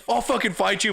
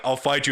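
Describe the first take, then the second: First: Heated threat. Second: Said in the usual way. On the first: Shown as a demonstration. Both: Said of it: "but it's not like".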